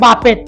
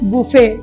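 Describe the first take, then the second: First: It ends with a t sound. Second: It ends with no t sound. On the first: The speaker calls it wrong. "তোমরা বলছো বাফেট" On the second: The speaker calls it right. "শুদ্ধ উচ্চারণ হচ্ছে বুফে"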